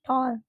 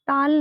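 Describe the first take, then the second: First: The vowel is a rounded 'aw'. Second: The vowel is an open, unrounded 'aa'. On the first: The speaker calls it right. "It's your टॉल" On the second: The speaker calls it wrong. "टाल नहीं"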